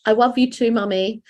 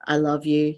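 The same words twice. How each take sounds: First: Put-on high toddler voice with w for l in "love"; small daughter. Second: Said in the usual way. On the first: Mum imitating her daughter waking at night, high toddler voice. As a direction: imitate a little girl, "love" said as "wuv". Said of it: "And she'll go". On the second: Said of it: "I say to her as she's going to sleep".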